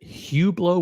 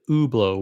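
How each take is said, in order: First: The initial H is pronounced. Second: The initial H is silent. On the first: "with an H" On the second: "with a silent H"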